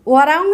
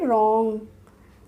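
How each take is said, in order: First: A W sound is heard before the R. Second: The word starts directly with the R sound. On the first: The speaker calls it wrong. "वरॉन्ग नहीं पढ़ेंगे" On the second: The speaker calls it right. "क्या पढ़ेंगे, रॉन्ग"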